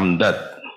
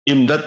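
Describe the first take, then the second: First: The word begins with an 'a' vowel. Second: The word begins with an 'i' vowel. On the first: It is the plural meaning gifts. "Kalau di fathah amdad" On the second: It is the verbal noun meaning extension. "bikasil hamzah, hamzahnya dikasroh"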